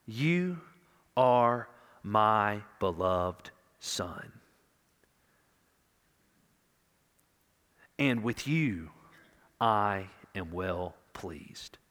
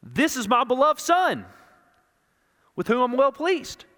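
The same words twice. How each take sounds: First: Slow, hushed and tender; tender fatherly voice. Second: Louder, higher, announcing to a crowd; public proclamation. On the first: The Father speaking privately to his Son, slow and tender. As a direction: let each word land like a father's comfort, slowly. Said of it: "to have the Father say". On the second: The Father announcing his Son to the crowd, loud proclamation. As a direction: proclaim it to everyone listening. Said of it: "They're hearing the Father say". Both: Retold or imitated.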